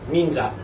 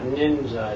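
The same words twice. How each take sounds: First: It is said with crisp, even Japanese syllables. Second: It is said with American English vowels and stress. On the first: The speaker calls it right. "It's ninja" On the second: The speaker calls it wrong. "It's not ninja"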